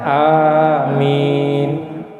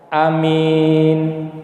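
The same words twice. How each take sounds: First: Both vowels are long, the m is short. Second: Short first vowel, long second vowel. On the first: "Ada panjang panjang" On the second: "pendek panjang"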